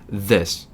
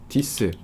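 First: It is said with an English th sound. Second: It is said with a Korean-style d sound. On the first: The speaker calls it right. "다르잖아요" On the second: The speaker calls it wrong. "땡"

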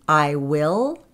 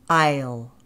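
First: It is said as two full words. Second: It is said as one contracted syllable.

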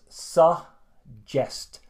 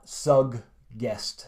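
First: The double G sounds like a single J. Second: Both G sounds are pronounced separately. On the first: The speaker calls it right. "think of the double G as kind of the J sound in English" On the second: The speaker calls it wrong. "not suggest, as Finns often say"

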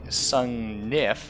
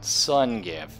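First: The second N sound is pronounced. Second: The second N sound is left out. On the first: The speaker calls it right. "Which is actually Sungnif" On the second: The speaker calls it wrong. "I never pronounce the second N"

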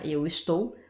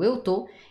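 First: The verb is said in full, two syllables. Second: The verb is shortened to one syllable. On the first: It is standard, formal language. "portugais padrão, dans quelque chose d'officiel" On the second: It is casual, spoken language. "plutôt ce que tu dis à l'oral"

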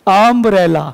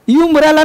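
First: The word begins with a short 'uh' vowel. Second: The word begins with a 'yoo' sound. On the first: The speaker calls it right. "Sound पहले का अम्ब्रेला" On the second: The speaker calls it wrong. "यू अम्ब्रेला नहीं"

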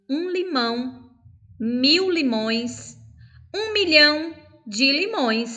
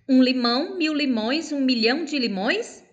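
First: It is said at a slower pace. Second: It is said at a fast pace.

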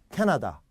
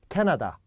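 No difference in how they are said.

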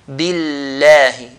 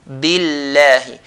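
First: The L is pronounced light and thin. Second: The L is pronounced light and thin.

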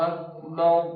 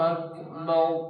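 Both takes have the same delivery.

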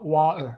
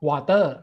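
First: It is said with a regional British accent. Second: It is said with a Thai accent. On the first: "สำเนียงของคนอังกฤษ" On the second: "ผมออกเสียงว่า"

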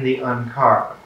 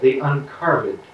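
First: The last syllable is said plainly. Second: The last syllable is given an old-fashioned emphasis.

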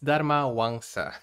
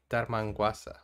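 First: The name is said as Dharmawangsa. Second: The name is said as Dharmangwasa. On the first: The speaker calls it right. "It's Dharmawangsa" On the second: The speaker calls it wrong. "And I say Dharmangwasa"

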